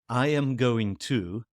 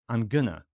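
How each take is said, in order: First: Every word is said fully and separately. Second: The words are shortened and run together.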